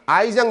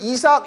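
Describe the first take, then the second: First: It begins with an 'eye' sound, three syllables. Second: It begins with an 'ee' sound, two syllables. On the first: "발음은 아이작이라고 읽어주고" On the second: "니네 이삭 토스트 할 때도 이걸 이삭을 쓰는데"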